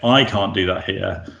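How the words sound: The stress is on I.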